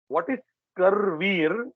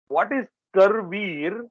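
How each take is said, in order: The two takes are said the same way.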